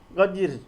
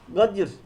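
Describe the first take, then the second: Both takes have the same delivery.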